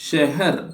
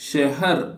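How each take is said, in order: No difference in how they are said.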